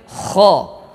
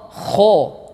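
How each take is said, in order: First: The vowel is said without rounding the lips. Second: The vowel is said with rounded, pushed-out lips. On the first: The speaker calls it right. "Jadi hanya boleh kho" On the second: The speaker calls it wrong. "tidak boleh memonyongkan kedua bibir kita. Contoh, kho, tidak boleh"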